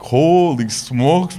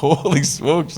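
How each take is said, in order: First: Slow, drawn-out "Holy smokes" in awe; awed, slow "Holy smokes"; amazed. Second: Said in the usual way. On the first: Retold or imitated. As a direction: stretch out "Holy smokes" like you can't believe it. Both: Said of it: "I'm like".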